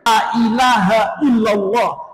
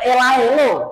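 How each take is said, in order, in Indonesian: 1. Frasa itu diucapkan dengan setiap suku kata utuh. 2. Frasa itu diringkas menjadi bentuk pendek dan tidak jelas.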